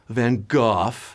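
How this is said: The name has a Dutch-style pronunciation. The speaker calls it right. "I'm saying the proper Dutch pronunciation"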